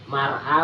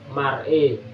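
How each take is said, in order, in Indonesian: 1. Vokal akhir itu bunyi 'a' terbuka. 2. Vokal akhir itu condong ke bunyi 'e'. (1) "bunyi dengan awal" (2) "Dibaca imalah"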